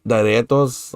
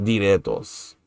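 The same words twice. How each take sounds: First: Diretos said one way, as a first option; first try of diretos. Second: Diretos said another way, as the alternative; second try of diretos. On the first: Learner asks tutor which diretos is right, first careful take. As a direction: offer diretos as the first guess. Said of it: "like that?". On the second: Learner asks tutor which diretos is right, second careful take. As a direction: offer diretos as the second guess. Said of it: "Or is it more like". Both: Shown as a demonstration.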